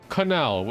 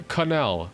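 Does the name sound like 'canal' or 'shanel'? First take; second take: canal; canal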